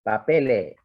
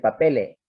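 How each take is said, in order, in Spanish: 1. La s final se elimina y la vocal se alarga. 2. La s final se elimina y la vocal se alarga.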